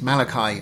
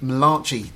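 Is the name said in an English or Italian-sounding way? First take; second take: English; Italian. First: The name is given its usual English pronunciation. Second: The name is given an Italian-sounding pronunciation. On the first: The speaker calls it right. "for Malachi is not Malachi, it's Malachi" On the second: The prophet is jokingly presented as Italian. The speaker calls it wrong. "the Italian prophet. I joke"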